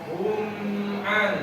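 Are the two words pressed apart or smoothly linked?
smoothly linked. The words flow smoothly into each other.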